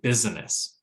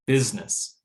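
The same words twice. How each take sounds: First: All three syllables are pronounced. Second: The middle syllable is dropped. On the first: "instead of" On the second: "reduced so much that we don't hear it"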